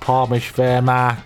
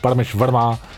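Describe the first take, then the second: First: It is said in a put-on British voice. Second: It is said in his own voice.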